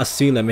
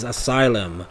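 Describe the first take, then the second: First: "asylum" with its sounds deliberately off; mispronounced asylum. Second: "asylum" carefully said as a-SIGH-lum; corrected asylum. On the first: Player mocking own trouble pronouncing asylum, mispronounced. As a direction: say "asylum" as the mistaken version. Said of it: "had trouble pronouncing asylum". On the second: Player correcting own slip to themselves, proper pronunciation. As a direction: stress the long-i middle of "asylum". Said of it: "It's not asylum". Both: Shown as a demonstration.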